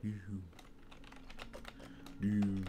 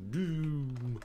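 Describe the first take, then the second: First: Doom murmured softly; quiet Doom. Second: Doom drawn out, dark; Doom voiced with ominous weight; deep Doom. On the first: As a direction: breathe out Doom darkly. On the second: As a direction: say Doom like a villain. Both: Shown as a demonstration. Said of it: "You gotta say it right".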